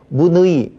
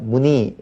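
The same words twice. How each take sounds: First: The second vowel is the diphthong ui. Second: The second vowel is a plain i. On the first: The speaker calls it wrong. "문의 이렇게 하나요? 안 하죠" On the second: The speaker calls it right. "이렇게 하면 되겠고요"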